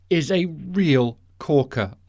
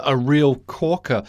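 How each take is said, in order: First: 'corker' said slow and weighted; pun on 'corker'. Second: 'real corker' slow, leaning on 'real'; pun repeated. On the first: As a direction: land the pun 'corker' slowly. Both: Real, not acted. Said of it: "you see what I did there".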